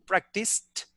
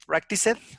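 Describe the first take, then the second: First: The ending joins the word with no extra syllable. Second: The ending is an extra separate syllable. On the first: The speaker calls it right. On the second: The speaker calls it wrong.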